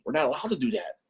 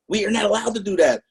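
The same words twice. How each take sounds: First: Said in the usual way. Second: "not" hit higher and louder; stress on not. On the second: Shown as a demonstration. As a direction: lean hard on "not" to insist.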